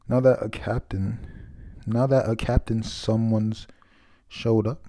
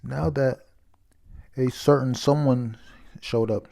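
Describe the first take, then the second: First: "captain" said in place of "certain", a stumbling first read; halting misreading of "captain"; misread line. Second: "certain" said clearly as "sər-tən", in place of "captain"; careful corrected reread, stressing "certain"; corrected reading. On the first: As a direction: read "now that a captain someone's showed up" with "captain" for "certain". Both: Real, not acted.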